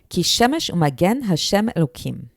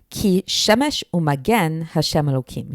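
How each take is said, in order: First: It is read at a faster pace. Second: It is read at a slower pace.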